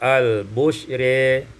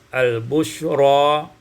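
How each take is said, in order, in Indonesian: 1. Vokal akhir condong ke e. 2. Vokal akhir adalah a terbuka.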